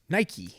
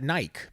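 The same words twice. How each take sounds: First: The final E is pronounced, two syllables. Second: The final E is silent, one syllable. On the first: This is the brand's actual name. "but it's Nike" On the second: This is how the spelling would suggest reading it. "I would pronounce that Nike"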